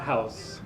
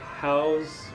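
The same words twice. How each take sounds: First: The word ends with a hissing s sound. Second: The word ends with a buzzing z sound. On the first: It is the noun meaning a home. The speaker calls it wrong. "not house" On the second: It is the verb meaning to contain something. The speaker calls it right. "house means to contain something"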